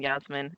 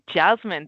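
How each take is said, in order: First: The name is said with a Dutch pronunciation. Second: The name is said with an English pronunciation. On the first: The speaker calls it wrong. "Dutch pronunciations again" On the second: The speaker calls it right.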